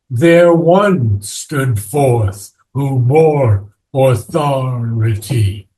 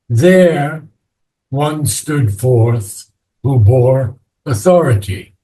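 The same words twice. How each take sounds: First: The word one is said with stress. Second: The word one is said without stress. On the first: The speaker calls it right. "we wanted to keep the iambic pentameter" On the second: The speaker calls it wrong. "now you read the line"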